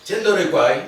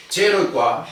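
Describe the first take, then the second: First: "Chendoro y cuá" loud, stressing "Chendoro"; negated Guaraní demo. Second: "Chero y cuá" spoken loud and clear for the class; Guaraní sentence demo. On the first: Teacher contrasting the negative form for students. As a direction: punch "Chendoro" to show the negation. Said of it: "yo a vos no te conozco". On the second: Teacher modelling a Guaraní phrase for students. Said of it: "qué dice". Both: Shown as a demonstration.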